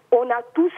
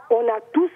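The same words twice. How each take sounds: The two takes are said the same way.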